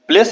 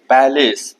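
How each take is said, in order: First: The p and l run together with no vowel. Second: A clear vowel sounds between the p and l. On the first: The speaker calls it wrong. "प्लेस नहीं बोलेंगे" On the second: The speaker calls it right.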